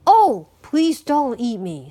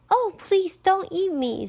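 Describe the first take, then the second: First: Pleading middle goat, fairly loud; middle-sized voice. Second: High, pleading little goat. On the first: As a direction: beg as the medium-sized goat. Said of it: "in a middle-sized voice". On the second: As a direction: beg in a small high voice. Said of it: "in a very little voice". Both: A narrator's reading.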